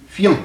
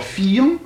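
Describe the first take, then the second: First: "fian" as one syllable, fyan; "fian" in a single short beat; modern one-syllable pronunciation. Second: "fian" split into fi-an; "fian" in two beats, fi then an; old two-syllable pronunciation. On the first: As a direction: turn the i of "fian" into a quick y glide. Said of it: "est devenu iode dans la prononciation". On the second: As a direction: give the i of "fian" its own full syllable. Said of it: "l'i devant voyelle est devenu iode". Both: Shown as a demonstration.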